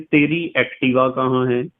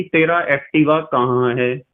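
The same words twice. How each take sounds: First: "तेरी Activa" said with feminine तेरी, ending in -ee; "तेरी" ending in ee, as other kids say it; feminine form. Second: "तेरा Activa" said with masculine तेरा, ending in -a; "तेरा" ending in a, as some kids say it; masculine form. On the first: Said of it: "और कुछ बच्चे कहते हैं". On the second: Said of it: "कुछ बच्चे तो कहते हैं कि". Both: Retold or imitated.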